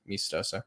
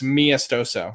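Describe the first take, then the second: First: Said without 'ah', as 'Mis-toso'. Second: Said as it looks, with 'ah' after 'Mi'. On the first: This is how the owner of the name says it. "I just pronounce it" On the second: This is how the written form reads. "it looks Miastoso, and that's how it's spelled"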